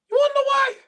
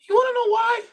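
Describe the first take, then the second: First: Even higher, squeaky tease; playful falsetto taunt; squeaky teasing voice. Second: Sing-song high teaser; playful high-pitched taunt; teasing high question. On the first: Repeated teasing question. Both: Acted.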